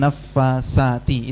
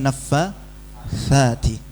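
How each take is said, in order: First: The middle consonant is a plain s sound. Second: The middle consonant is a soft th sound. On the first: The speaker calls it wrong. "Itu banyak yang baca begitu" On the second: The speaker calls it right.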